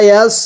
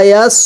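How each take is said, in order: Both takes have the same delivery.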